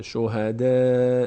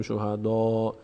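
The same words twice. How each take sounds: First: شهدا with a thin, light "de" and a long held vowel; slow, loud شهدا without heavy d; light dal. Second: شهدا with a heavy, dark "dɔ" ending; wrong heavy dal. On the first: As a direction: keep the d of شهدا light, stretching a front "æ". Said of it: "دال پر خونده نمیشه". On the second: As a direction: round the last vowel of شهدا to "aw". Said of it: "نمیگیم شهدا". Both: Shown as a demonstration.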